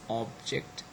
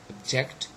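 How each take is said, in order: First: The stress is on the first syllable. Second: The stress is on the second syllable. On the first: It is used as a noun. "they are all nouns, and that's why the first syllable is stressed" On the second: It is used as a verb. "So all of them are verbs, and that's why the second syllable is stressed"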